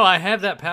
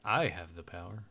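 First: Loud, high excited interjection; an excited, raised-voice realization; excited outburst. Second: Low, hushed revelation voice; a mock-solemn, deep proclamation; dramatic revelation. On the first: Real, not acted. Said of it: "let me do, like, the revelation". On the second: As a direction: intone it low and soft, like a revelation. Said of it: "the revelation".

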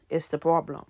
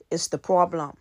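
Both takes have the same delivery.

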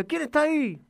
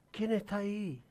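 First: Curious shout. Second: Softer echo, as if from far off; faint echo. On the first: Boy calls across the mountain, curious shout. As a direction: call out into the mountains to find who's there. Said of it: "y con curiosidad grita". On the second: The mountain answers the boy, faint echo. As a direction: let it come back quietly like a distant echo. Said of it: "Le responde la montaña". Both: A narrator's reading.

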